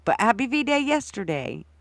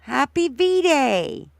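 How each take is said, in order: First: Said in the usual way. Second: Slow, high stretched greeting; drawn-out greeting. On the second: Real, not acted. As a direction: draw out the greeting happily.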